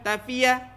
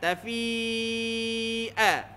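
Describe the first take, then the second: First: The vowel before the glottal stop is short. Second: The vowel before the glottal stop is drawn long. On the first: The speaker calls it wrong. "kalau tak tak panjang" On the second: The speaker calls it right. "Tafi dia kena panjangkan lah"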